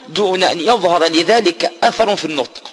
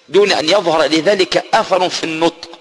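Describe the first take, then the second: The two takes are said the same way.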